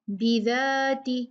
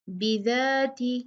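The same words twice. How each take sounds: The two takes are said the same way.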